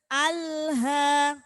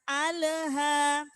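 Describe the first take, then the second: First: The L sound flows straight into the next. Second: The L sound bounces with an echo. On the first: The speaker calls it right. "Jadi langsung aja mengalir" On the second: The speaker calls it wrong. "Tidak boleh memantul juga. Jangan alha"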